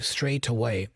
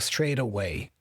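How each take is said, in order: First: The T is a clear, crisp T sound. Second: The T is a soft, quick flap. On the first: "with a true T sound" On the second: "A typical American would flap that T"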